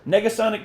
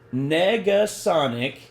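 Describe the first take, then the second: First: The word is said quickly. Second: The word is said slowly. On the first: "I said that a little fast" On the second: "I will say it slower"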